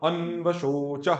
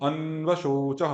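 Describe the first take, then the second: The two takes are said the same way.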